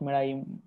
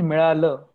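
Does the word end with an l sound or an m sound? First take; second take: m sound; l sound. First: The word ends with an m sound. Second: The word ends with an l sound. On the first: The speaker calls it wrong. "not milaim" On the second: The speaker calls it right. "The pronunciation is milala"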